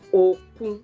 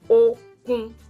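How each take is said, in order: First: The first syllable is low, the second level. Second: Both syllables stay on the same level pitch. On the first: It means sea. "do, re. Do, you put your voice down. Re is flat" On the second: It means strength. "re, re, that is strength"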